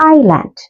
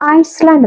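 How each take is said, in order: First: No s sound is heard after the first vowel. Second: An s sound is heard after the first vowel. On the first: The speaker calls it right. "എസ് silent ആ" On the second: The speaker calls it wrong. "ഐസ്ലാൻഡ് എന്നാണ് വായിക്കുക"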